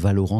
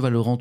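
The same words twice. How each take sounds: First: The word is pronounced the French way. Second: The word is pronounced the English way. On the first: "c'est très bien aussi" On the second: "je le prononce à l'anglo-saxonne"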